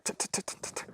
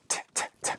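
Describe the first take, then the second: First: Whispered "t-, t-, t-, t-," popped fast and clipped; rapid unvoiced "t-" bursts cut short; quick tongue taps. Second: Whispered "t-, t-, t-" drawn out, long breaths; unvoiced "t-, t-, t-" held airy; slow tongue taps. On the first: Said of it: "I'm popping it quicker". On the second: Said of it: "elongated breaths of t". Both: Shown as a demonstration.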